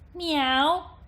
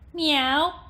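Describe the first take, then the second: First: The voice has a bright, piercing twang. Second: The voice has a bright, piercing twang.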